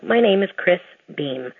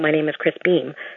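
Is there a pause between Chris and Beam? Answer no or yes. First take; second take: yes; no. First: A pause separates the two names. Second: The two names run together quickly. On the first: The two names are heard separately. The speaker calls it right. "I always have to put a pause in between the two names" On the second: It is misheard as a different name. The speaker calls it wrong. "when I say it fast"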